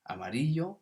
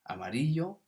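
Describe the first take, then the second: First: The double L is said as a y sound. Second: The same.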